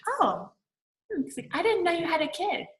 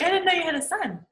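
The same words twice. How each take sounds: First: High, surprised quoting of the husband; a raised-pitch mock of a startled date. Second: High, quick, surprised quoting of the husband; a raised, hurried mock of the date's reply; surprised husband again. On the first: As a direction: play the husband, taken aback and pitched up. Retelling the husband's surprised reply. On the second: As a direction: repeat his startled line fast and high. Repeating the husband's reply faster.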